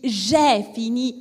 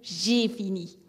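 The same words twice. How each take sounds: First: The vowel of j'ai is open, like è. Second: The vowel of j'ai is closed, like é. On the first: "entre le est" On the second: "et le et"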